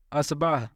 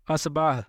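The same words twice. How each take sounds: The two takes are said the same way.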